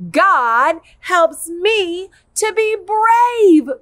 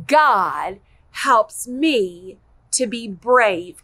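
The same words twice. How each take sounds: First: Slow, louder and higher, chanted together; loud group recital. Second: Slow, deliberate, every word spelled out; slow model line. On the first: Teacher reciting the verse with the kids, loud slow chant. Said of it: "Are you ready?". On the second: Teacher modelling the memory verse for kids, slow and clear. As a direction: model the line slowly for children to copy. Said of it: "Can you say that with me?". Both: Shown as a demonstration.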